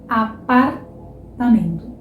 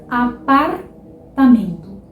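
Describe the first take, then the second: No difference in how they are said.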